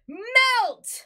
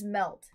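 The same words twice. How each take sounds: First: The word is said loudly with excitement. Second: The word is said flatly, without excitement.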